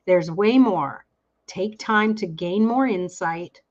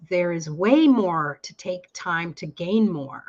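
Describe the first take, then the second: First: "There's way more." stopped short, then "Take time to gain more insight" read slowly; "There's way more" said as its own sentence, with a pause before "Take time"; corrected phrasing. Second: "There is way more to take time to gain more" run together as one slow line; phrase it wrongly, with no break after "more"; "way more to take time" read as a single unit; misread phrasing. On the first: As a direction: break the line after "way more", then go on slowly. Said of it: "It's all in the emphasis of the words". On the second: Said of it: "I'm sorry, I'm reading wrong".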